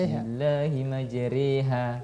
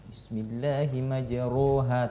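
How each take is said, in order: First: The vowel after the r sounds like e. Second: The vowel after the r sounds like o. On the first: This is how it is actually recited. The speaker calls it right. "tapi dibaca" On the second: This follows the spelling. The speaker calls it wrong.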